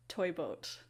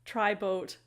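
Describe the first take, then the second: First: "toy boat" said right, toy with a clear oy after the slip; corrected tongue twister. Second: "tri boat" comes out as a slip, tri instead of toy; tongue twister slip. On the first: Teacher recovering the tongue twister with "toy boat" said right. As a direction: land "toy boat" properly the second time. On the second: Teacher stumbling on the tongue twister, saying "tri boat". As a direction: trip over "tri boat" mid-twister. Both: Shown as a demonstration. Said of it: "number two is toy boat".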